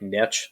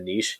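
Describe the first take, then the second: First: It is said with an American pronunciation. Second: It is said with a Canadian pronunciation. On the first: This is the American way of saying it. "I'm very Americanized ... So I th- say things like niche" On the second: This is the Canadian way of saying it. "as opposed to niche ... a lot of Canadians ... we're so fancy saying niche"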